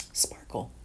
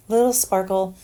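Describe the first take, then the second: First: Breathy whisper of sparkle, unvoiced. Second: "Little sparkle" lifted higher and louder, playful; a cutesy lifted "Little sparkle here and there"; playful sing-song. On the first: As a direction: whisper "sparkle" like a little secret. Playful whisper of one word. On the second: Pretend. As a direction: say "Little sparkle" brightly after the whisper.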